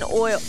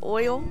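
First: The word is said in a country accent. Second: The word is said in a standard accent. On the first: The speaker calls it wrong. "sometimes I be sounding like I'm country. Like, I've been saying oil" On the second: The speaker calls it right. "Instead of oil"

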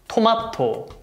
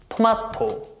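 First: It is said with Korean pronunciation. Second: The same.

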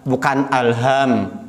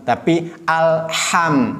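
First: The h is a light plain breath. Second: The h is a harsh sound from deep in the throat. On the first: The speaker calls it wrong. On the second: The speaker calls it right.

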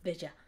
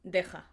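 First: The j sounds like an English j. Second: The j is a harsh throaty rasp. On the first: The speaker calls it wrong. "instead of deja" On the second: The speaker calls it right. "it's deja"

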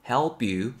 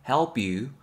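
Both takes have the same delivery.

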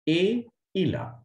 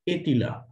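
First: The t is silent with no linking. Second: The t is sounded and linked to il. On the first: The speaker calls it right. "Here we have to say A Ila" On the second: The speaker calls it wrong. "here we cannot say Etila"

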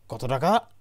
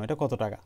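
First: It is a shocked, surprised question. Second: It is a plain, neutral question.

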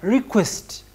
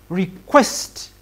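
First: The stress falls on the first syllable. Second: The stress falls on the second syllable. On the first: It is a noun: an act of asking for something. "The request, the stress is on R" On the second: It is a verb: to ask for something. "But when it comes to the verb, the stress is on CHU"

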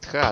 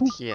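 First: The word ends in an 'a' vowel. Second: The word ends in an 'e' vowel. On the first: The speaker calls it wrong. "не тха" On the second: The speaker calls it right. "Тхе, тхе, не тха"

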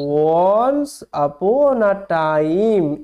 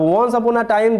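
First: It is read slowly and haltingly, word by word. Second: It is read smoothly at a quick, even pace. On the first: This is how one really reads before building fluency through repetition. "যখনই আমি উচ্চারণ শিখলাম তখন আমি এই রকম ভাবে পড়তে পারবো" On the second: This is how people wrongly expect to read after learning pronunciation. "অনেকে ভাবে কি যে উচ্চারণ করা শেখা মানেই আমি এরকম ভাবে পড়তে পারবো"

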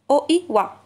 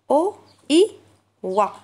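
First: The sounds are said at a faster pace. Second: The sounds are said at a slower pace. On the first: "Et plus rapide" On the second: "Faites comme moi"

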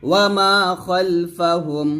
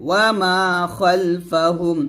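No difference in how they are said.

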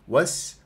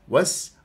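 First: The consonant is a hissing s sound. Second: The same.

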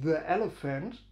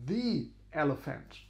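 First: The word 'the' ends in a short schwa. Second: The word 'the' ends in a long ee. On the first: The speaker calls it wrong. "nicht the elephant" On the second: The speaker calls it right. "sondern the elephant"

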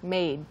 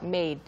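No difference in how they are said.

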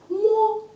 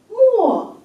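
First: The pitch stays high and level. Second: The pitch falls sharply from high to low.

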